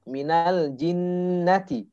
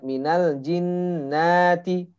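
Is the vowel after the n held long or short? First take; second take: short; long. First: The vowel after the n is short. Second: The vowel after the n is drawn out long. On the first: The speaker calls it right. "Kalau tidak ada panjangnya jangan dipanjangkan" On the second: The speaker calls it wrong.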